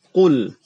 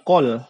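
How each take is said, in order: First: The vowel is a rounded 'oo' sound. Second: The vowel is an open 'oh' sound. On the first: The speaker calls it right. "Jadi dia sempurna dibaca ku" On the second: The speaker calls it wrong. "bukan kol ya"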